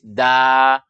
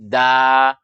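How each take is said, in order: First: It is thin, with an open a-like vowel. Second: The same.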